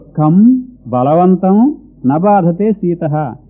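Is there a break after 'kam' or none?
break. There is a break after 'kam'.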